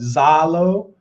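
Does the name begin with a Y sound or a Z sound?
Z sound. It is said the northern way, starting with Z.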